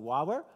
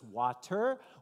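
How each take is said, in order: First: The word is clipped, with the middle consonant dropped. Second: The word is said in full with both syllables. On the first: A toddler is saying it. The speaker calls it wrong. "he's not exactly pronouncing everything just right" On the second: An adult is modelling it. The speaker calls it right. "you're trying to correct his pronunciation"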